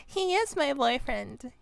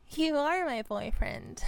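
First: "is" lifted and leaned on; stress on IS. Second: "are" lifted, then falling; affectionately insist, leaning on "are"; stress on ARE. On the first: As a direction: playfully correct yourself, hitting "is". Playful correction, stressing the verb. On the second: Same line turned to the partner. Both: Acted.

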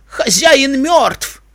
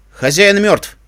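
First: High, long-drawn shout; stretched, high-pitched proclamation; crying out. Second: Raised, higher-pitched proclamation; firm, loud declaration; loud announcement. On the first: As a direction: call it out slowly over the crowd. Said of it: "крикнул Лок". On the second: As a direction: announce it loudly to the whole crowd. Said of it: "громко объявил я". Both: A narrator's reading.

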